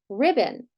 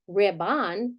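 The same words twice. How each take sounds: First: The second vowel is a reduced schwa. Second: The second vowel is a full vowel. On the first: The speaker calls it right. "we say ribbon. So that is flexing to a schwa" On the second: The speaker calls it wrong. "We don't say ribbon"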